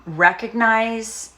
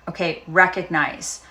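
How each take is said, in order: First: Recognize said slowly and higher, stretched out; drawn-out teaching word. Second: Said in the usual way. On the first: Shown as a demonstration. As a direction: lay out "recognize" slowly as the first step. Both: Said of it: "Tara Brach talks about rain".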